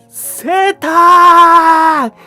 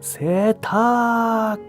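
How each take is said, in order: First: It is shouted loudly and boldly. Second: It is said quietly and hesitantly. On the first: The speaker calls out confidently to customers. The speaker calls it right. "우렁차게 다시 한 번 더" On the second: The speaker is too shy to call out. The speaker calls it wrong. "머뭇머뭇 기어가는 목소리로 세탁 겨우 내뱉었습니다"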